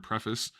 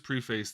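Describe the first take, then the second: First: "preface" said as PREF-iss; "preface" with a clipped, unstressed second syllable; short-vowel pronunciation. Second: "preface" said as PREE-face; "preface" rhyming its end with "face"; long-vowel pronunciation. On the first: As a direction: say "preface" with a short e and weak ending. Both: Real, not acted. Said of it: "however you pronounce that word".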